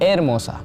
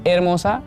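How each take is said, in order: First: The word begins directly with a vowel. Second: The word begins directly with a vowel.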